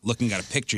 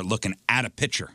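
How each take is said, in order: First: Said in the usual way. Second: PICTURE said as "pitcher"; Chicago pronunciation. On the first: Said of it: "And you're not, you know". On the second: Shown as a demonstration. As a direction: drop the K sound in PICTURE, "pitcher". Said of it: "Words like butt and cut".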